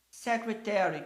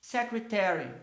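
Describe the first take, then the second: First: Secretary repeated, stress on SEC; English word secretary. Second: Secretary with stress on SEC; English word secretary. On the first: (repetição de "Secretary" com tônica em SEC) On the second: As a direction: model secretary for the class. (pronúncia de "secretary" com tônica em SEC) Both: Shown as a demonstration.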